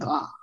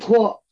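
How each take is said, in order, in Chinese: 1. 这个字读 ta，是开口元音。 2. 这个字读 tuo，是圆唇元音。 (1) "现代这个普通话读他" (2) "那个在古代就是读托"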